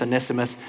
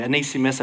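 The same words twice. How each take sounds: First: Onesimus with a short "ness"; usual pronunciation of Onesimus. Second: Onesimus with a long "nee"; alternative pronunciation of Onesimus. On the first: Preacher trying the name both ways, Onesimus with short "e". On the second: Preacher owning up to slashing the name, Onesimus said with "ee". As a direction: stretch the second syllable of Onesimus to "nee". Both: Shown as a demonstration. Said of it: "that's my Aussie accent doing it though".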